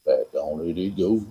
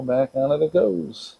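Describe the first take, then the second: First: Put-on low, softer voice; playfully deep voice. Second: Said in the usual way. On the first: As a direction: drop it way down low. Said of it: "Gotta use your deep voice".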